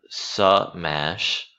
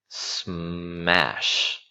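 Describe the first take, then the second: First: An extra vowel is inserted between S and M. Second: S and M are joined with no vowel between. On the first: The speaker calls it wrong. "Notice it's not smash. There's no A or U right here" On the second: The speaker calls it right. "It's smash"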